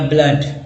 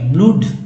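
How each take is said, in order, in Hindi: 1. स्वर छोटा 'uh' ध्वनि है। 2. स्वर लंबा 'oo' ध्वनि है।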